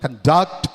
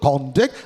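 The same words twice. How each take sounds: First: The stress is on the second syllable. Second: The stress is on the first syllable. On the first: The word is used as a verb. "falls on the second syllable" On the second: The word is used as a noun. "it could fall on the first syllable"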